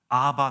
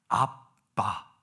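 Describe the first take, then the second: First: The middle consonant is a soft, plain b. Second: The middle consonant is a tense, hard pp. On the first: The speaker calls it wrong. "노" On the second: The speaker calls it right. "한글이 가장 원어적인 발음에 가깝다고"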